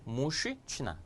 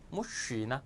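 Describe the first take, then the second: First: A voiceless sh sound is followed by ch. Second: Only a soft sh sound, with no ch. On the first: The first consonant assimilates to the next one. The speaker calls it wrong. "역행동화가 되니까" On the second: This is the smooth everyday pronunciation. The speaker calls it right. "부드럽게 유하게 발음을 해요"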